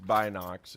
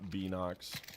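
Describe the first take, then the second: First: The first syllable does not sound like binoculars. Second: The first syllable sounds like binoculars. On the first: The speaker calls it right. "it is Binox" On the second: The speaker calls it wrong. "It's not Binox. Like I thought it was short for like binoculars"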